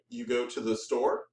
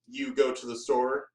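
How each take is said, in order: First: The voice rises at the end. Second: The voice falls at the end. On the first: It is a question. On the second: It is a statement.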